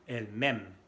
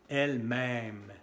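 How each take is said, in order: First: "elle-même" ending on a short E, as "m'aime". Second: "Elle-même" with a long open E in "même"; circumflex E. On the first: Teacher contrasting for learners, short final vowel in "elle-même". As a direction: keep the last vowel of "elle-même" brief. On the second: Teacher contrasting for learners, lengthened "même" in "Elle-même". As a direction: draw out the vowel of "même" in "Elle-même". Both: Shown as a demonstration. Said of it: "Bien diferente".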